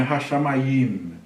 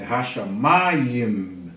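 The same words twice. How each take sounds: First: Hashamayim run evenly to a last "yim", no punch on MA; wrong stress. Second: Hashamayim slowly, with MA drawn out; correct stress on MA. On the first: Teacher showing how not to say Hashamayim, MA left unstressed. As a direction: say Hashamayim without stretching "ma", weight toward the final "yim". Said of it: "Não é Hashamayim". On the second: Teacher correcting the stress of Hashamayim, long stressed MA. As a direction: stretch and lift the "ma" in Hashamayim, let "yim" fall away. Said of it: "É Hashamayim". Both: Shown as a demonstration.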